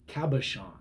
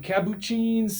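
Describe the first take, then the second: First: The word is said clearly as 'cabochon'. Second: The word is garbled, sounding like 'capuchins'. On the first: The speaker calls it right. "the proper pronunciation is cabochon" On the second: The speaker calls it wrong. "the names are all over the place"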